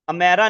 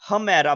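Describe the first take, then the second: First: The word starts directly with the vowel. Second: The word starts with a breathy h sound. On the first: The speaker calls it wrong. "इसको अमेरा नहीं बोलेंगे" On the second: The speaker calls it right. "बल्कि हमेरा बोलेंगे"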